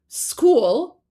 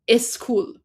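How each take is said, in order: First: It is said in plain English, no added vowel. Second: A vowel is added before the initial consonants.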